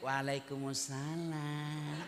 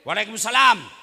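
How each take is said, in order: First: It is said in a soft, drawn-out, sultry voice. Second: It is said in a short, firm, businesslike voice.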